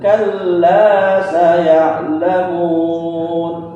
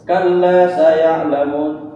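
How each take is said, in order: First: The vowel after the l is held long. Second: The vowel after the l is cut short. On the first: The word counts as three letters, as written. The speaker calls it right. "kita baca pakai mat sesuai dengan tulisan" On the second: The word then counts as only two letters. The speaker calls it wrong. "Kalau panjangnya nggak dibaca"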